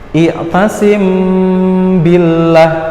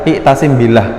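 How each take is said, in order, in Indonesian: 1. Mimnya disamarkan, sengau, dan ditahan lebih lama. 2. Mimnya dibaca biasa dan singkat. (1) "Samarnya itu hurufnya mim" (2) "nggak boleh dibaca biasa"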